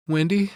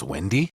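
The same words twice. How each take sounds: First: "Wendy" called high and pleading, a sweet plea for sympathy; pleading Jack. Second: Menacing Jack. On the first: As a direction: draw the name "Wendy" out high and needy. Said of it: "he tries to play on Wendy's sympathy". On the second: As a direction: ask "Wendy?" like a madman setting a trap. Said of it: "all the crazy's back in Jack's eyes". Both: Retold or imitated.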